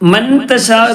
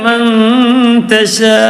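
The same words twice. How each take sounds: First: The n is pronounced clearly before the t. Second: The n is hidden and nasalized into the t. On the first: The speaker calls it wrong. "എന്ന് പറഞ്ഞില്ല" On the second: The speaker calls it right. "ഇഖ്ഫാ ചെയ്യണം"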